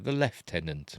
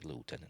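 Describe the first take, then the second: First: It is said with a British pronunciation. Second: It is said with an American pronunciation.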